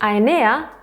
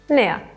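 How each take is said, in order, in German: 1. Der Artikel wird vollständig gesprochen, mit zwei Silben. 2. Der Artikel wird verkürzt gesprochen, auf eine kurze Silbe.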